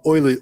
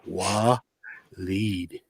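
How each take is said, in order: First: The name begins with an 'oy' sound. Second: The name begins with a 'wa' sound. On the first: The speaker calls it wrong. "I was calling him Oiled" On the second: The speaker calls it right. "it's pronounced Waleed"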